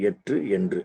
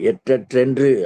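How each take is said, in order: First: The word is split into two separate parts. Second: The word is said as one joined word. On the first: "அப்படி பிரிச்சு படிக்கணும்" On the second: "அப்படி சொல்லணும்"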